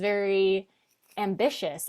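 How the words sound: It is said sarcastically, with a pause. It implies failure in the home or relationships. "there's that pause and like that, it, there's an implication there"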